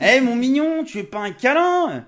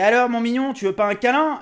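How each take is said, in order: First: It is said in a husky, put-on woman's voice. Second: It is said in his normal voice.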